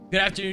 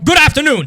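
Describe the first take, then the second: First: It is said in his normal voice. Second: It is said in a put-on news-reporter voice.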